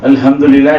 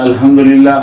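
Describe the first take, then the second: First: The h is a soft breath from the chest. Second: The h is a soft breath from the chest.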